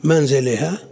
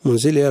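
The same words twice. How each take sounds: First: "منزلها" as manziliha, opening on ma, questioning rise; fatha on mim. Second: "منزلها" as munziliha, opening on mu; damma on mim. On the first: Teacher tests the student's suggestion, "منزلها" opening on ma, questioning. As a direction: start "منزلها" with a short a and end it as a question. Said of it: "خلوها بفتح الميم". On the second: Teacher reads out the marked vowels, "منزلها" opening on mu. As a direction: start "منزلها" with a short u after the m. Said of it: "بضم الميم". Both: Shown as a demonstration.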